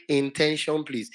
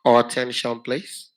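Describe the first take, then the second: First: "intention" said instead of attention; mock the local PA saying "intention, please"; mangled English boarding call; botched announcement. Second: Attention said cleanly with a clear t and a crisp please; crisp announcer reading of "Attention, please"; proper British boarding call; London announcement. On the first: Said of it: "we now mess up the English". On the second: Retold or imitated. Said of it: "We just hear".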